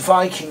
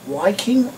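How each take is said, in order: First: The name begins with a V sound. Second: The name begins with a W sound.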